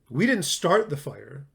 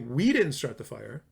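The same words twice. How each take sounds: First: The stress is on "start". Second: The stress is on "we".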